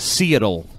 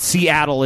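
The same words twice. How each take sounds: First: SEATTLE drawn out as "SEE-tul"; joke mispronunciation. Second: SEATTLE said as "see-AT-ul"; normal pronunciation. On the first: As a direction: say Seattle slowly with the middle "at" dropped. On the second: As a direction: say Seattle with the stressed "at" in the middle. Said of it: "It's not". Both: Shown as a demonstration.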